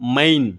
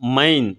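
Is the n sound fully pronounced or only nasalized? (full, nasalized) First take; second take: full; full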